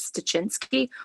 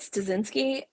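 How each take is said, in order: First: The middle consonant is a ch sound. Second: The middle consonant is an s sound. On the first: "the more Polish way" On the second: "the way you said Stasinski"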